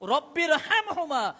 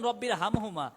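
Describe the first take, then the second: First: The Arabic sounds are pronounced precisely and carefully. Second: The Arabic sounds are pronounced loosely and carelessly. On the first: The speaker calls it right. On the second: The speaker calls it wrong.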